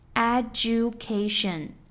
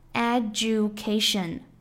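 First: The d and y merge into 'ju'. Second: The same.

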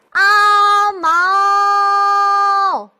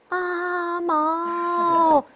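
First: The call sounds like really calling to someone. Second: The call sounds put on and artificial. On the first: The caller truly sees the person. The speaker calls it right. "真看见一个人去喊他的时候" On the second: The caller is only pretending. The speaker calls it wrong. "像咱们这样"

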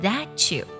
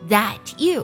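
First: The two words are linked together. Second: The two words are said separately.

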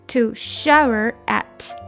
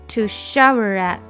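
First: The phrase is said at a slower pace. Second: The phrase is said at a faster pace.

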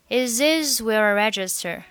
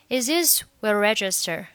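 Both takes have the same delivery.

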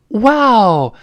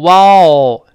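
First: It is said with lively, surprised intonation. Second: It is said flatly, without expressive intonation. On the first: The speaker calls it right. "女孩子嘛，可能也更爱惊讶" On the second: The speaker calls it wrong. "不要读wow，这不行啊"

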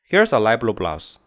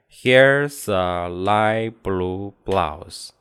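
First: The sentence is spoken quickly. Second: The sentence is spoken slowly. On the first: "由慢到快" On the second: "由慢到快"

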